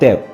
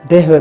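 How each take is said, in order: First: The words merge into one short syllable. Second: Both words are said in full. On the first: "हो गया देव" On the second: "दे हैव का"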